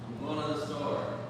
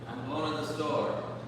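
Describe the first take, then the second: First: The words are shortened and run together. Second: The same.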